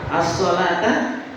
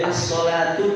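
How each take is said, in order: First: The word ends with an 'a' vowel. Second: The word ends with a 'u' vowel. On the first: It is read as the object of an implied verb. "Mansub itu difathahkan keduanya" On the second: It is read as the subject of the sentence. "as-sholatu didomahkan"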